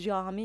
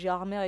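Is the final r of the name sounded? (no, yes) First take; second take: no; yes. First: The name ends in a vowel, no r. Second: The name ends with a sounded r. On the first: The locals say it this way. "les gens de Gérard Armé disent Gérard Armé" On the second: Some outsiders say it this way. "il y en a quand même qui disent"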